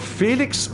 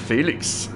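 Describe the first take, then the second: First: The name is said with English pronunciation. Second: The name is said with German pronunciation.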